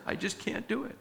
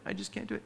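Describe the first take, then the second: First: Mock defeated plea. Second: Fading defeated mutter. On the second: Pretend. Repeated plea fades out.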